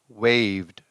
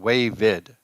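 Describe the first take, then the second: First: The ending is a bare d sound, one syllable. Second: The ending is an extra id syllable, two syllables. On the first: The speaker calls it right. "sometimes we just say the D" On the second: The speaker calls it wrong. "It's not wavid"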